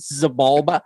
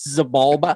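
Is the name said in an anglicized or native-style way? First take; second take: anglicized; anglicized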